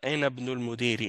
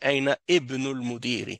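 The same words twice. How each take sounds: First: The glottal stop and vowel of 'ibn' are dropped. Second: The glottal stop and vowel of 'ibn' are pronounced. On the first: The speaker calls it right. "c'est ça" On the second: The speaker calls it wrong. "on va pas dire"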